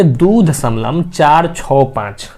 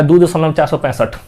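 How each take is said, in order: First: Slow "दो दशमलव चार छः पाँच", each digit separate; correct digit-by-digit reading. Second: Wrong run-together reading. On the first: Teacher showing students the right way to read decimals, slow separate "चार छः पाँच". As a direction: spell out "चार छः पाँच" one digit at a time. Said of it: "इसको कैसे पढ़ेंगे?". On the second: Teacher showing students the wrong way to read decimals, quick run-together "चार सौ पैंसठ". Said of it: "गलती है, मैथ के टर्म में ये बिल्कुल गलती है". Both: Shown as a demonstration.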